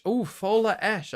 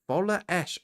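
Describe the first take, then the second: First: Sudden recognition. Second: Said in the usual way. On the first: Real, not acted. Recognises the club name.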